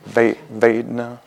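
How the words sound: The word is said with an American accent. "in Pali pronounced in American way"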